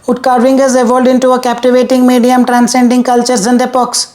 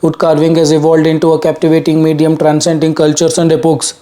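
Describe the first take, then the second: First: The voice is at a much higher pitch. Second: The voice is at a lower, normal pitch. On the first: "Let's say the pitch goes to two fifty now" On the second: "The pitch is probably one sixty to one seventy"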